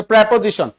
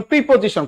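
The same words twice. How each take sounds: First: প্রিপোজিশন said with open "pre" at the front; corrected pronunciation. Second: প্রিপোজিশন said with "pri/pi" at the front; mistaken pronunciation. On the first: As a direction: open প্রিপোজিশন on an e sound, "prepojishon". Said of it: "এটা হচ্ছে প্রিপোজিশন". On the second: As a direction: open প্রিপোজিশন on a close i sound, "pripojishon". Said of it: "কোনো প্রিপ্রি না". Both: Shown as a demonstration.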